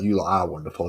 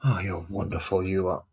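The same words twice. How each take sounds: First: Said in the usual way. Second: Mock praise with a sarcastic edge. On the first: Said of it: "I don't mean you lot". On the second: Real, not acted. Grumbling at the fiddly models being painted, sarcastic. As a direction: say the praise sarcastically, at usual pitch and volume. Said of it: "I'm being sarcastic at".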